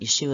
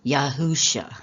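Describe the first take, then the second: First: The name is said without a middle h sound. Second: The name is said with a middle h sound. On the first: The speaker calls it wrong. "Yeshua is not really correct" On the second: The speaker calls it right. "It should be Yahusha is, is how it should be pronounced"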